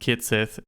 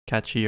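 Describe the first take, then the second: First: The name ends with a 'sith' sound. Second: The name ends with a 'chee' sound. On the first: This is the officially announced pronunciation. "It says pronounced Kitsith" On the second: This is a pronunciation fans expected. "instead of uh, Kachi or Ketchi"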